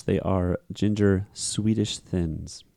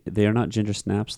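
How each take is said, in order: First: Ginger Swedish thins, slow and deliberate, each word weighted; stress on ginger Swedish thins. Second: Said in the usual way. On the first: Shown as a demonstration. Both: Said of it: "there was an error made".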